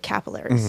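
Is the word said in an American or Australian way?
American. It is said with an American pronunciation. "you guys say capillaries"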